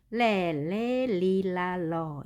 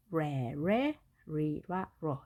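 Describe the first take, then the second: First: 레, 레, 리, 라, 러 with a clear L, tongue touching the palate; L sounds. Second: 레, 레, 리, 라, 러 as English re, re, ri, ra, ro; R sounds. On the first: Teacher drilling English L for learners, 레, 레, 리, 라, 러 with tongue on the palate. R 발음은 L과 구분을 해주는데요. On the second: Teacher drilling English R for learners, 레, 레, 리, 라, 러 with curled tongue. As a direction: curl the tongue on 레, 레, 리, 라, 러, never touching the palate. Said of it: "혀를 구부려준다고 해서요". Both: Shown as a demonstration.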